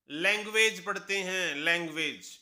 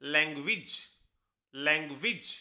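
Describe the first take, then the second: First: लैंग्वेज ending in a full एज; spelling-style लैंग्वेज; common mispronunciation. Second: लैंग्वेज ending in a short इज; correct pronunciation. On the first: Teacher shows the wrong reading of language. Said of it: "लेकिन इसकी सही pronunciation है". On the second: Teacher models language for the class. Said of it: "सही pronunciation है". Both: Shown as a demonstration.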